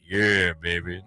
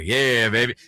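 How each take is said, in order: First: It is said at a slower pace. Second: It is said a little quicker.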